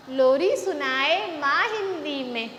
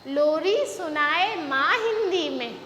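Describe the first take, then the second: No difference in how they are said.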